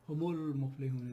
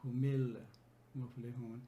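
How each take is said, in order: First: The linking vowel after hum is a u. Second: The linking vowel after hum is an i. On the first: The speaker calls it right. "much more fluent and smooth way" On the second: The speaker calls it wrong. "rather than saying humil muflihun"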